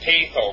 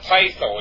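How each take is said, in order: First: The first vowel sounds like 'ay'. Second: The first vowel sounds like 'eye'. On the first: The speaker calls it right. "it's patho, because we have a diphthong in there" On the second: The speaker calls it wrong. "It's not pytho"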